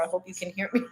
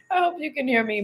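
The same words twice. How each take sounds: First: Said in the usual way. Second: Much higher, lighter repeat after a laugh; amused repeat. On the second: Real, not acted. Apologizing to viewers for the train noise, high amused repeat.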